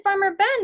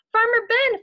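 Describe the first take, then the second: First: Loud, higher call ending on a rise. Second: Loud, higher call with a falling end. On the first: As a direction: call the farmer's name again, rising at the end. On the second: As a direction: call across the field to the farmer, falling at the end. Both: Acted. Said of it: "they called".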